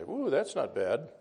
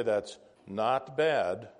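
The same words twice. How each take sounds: First: Impressed "Ooh" with approving lift; impressed emphasis. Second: Said in the usual way. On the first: Shown as a demonstration. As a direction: sound pleasantly surprised on "Ooh, that's not bad". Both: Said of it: "Depends on your emphasis".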